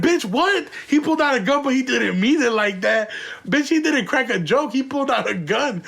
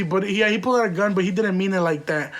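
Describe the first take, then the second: First: Incredulous. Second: Said in the usual way. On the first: Retold or imitated. Mocking the wife's excuse, incredulous and raised. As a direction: throw her excuse back at her, stunned.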